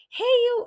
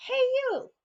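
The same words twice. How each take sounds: First: High, loud yell across the road; calling out. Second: High, loud shout across the street; calling out. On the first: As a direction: holler it to get their attention. Stranger calling out again, louder. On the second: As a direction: call out to someone far off. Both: Retold or imitated.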